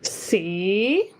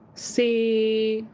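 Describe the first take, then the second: First: Tone two, a different pitch contour. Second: Tone six, another distinct pitch. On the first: "Second tone C" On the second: "number six"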